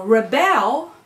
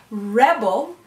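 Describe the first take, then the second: First: "rebel" as the verb, re-BEL; "rebel" drawn out, stressed on bel; second-syllable stress. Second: "Rebel" as the noun, REB-el; "Rebel" stressed loudly on reb; first-syllable stress. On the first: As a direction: punch the last syllable of "rebel". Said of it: "becomes a verb then". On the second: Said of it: "is a noun". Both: Shown as a demonstration.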